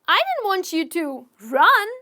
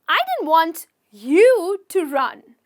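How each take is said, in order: First: The stress is on the word run. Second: The stress is on the word you.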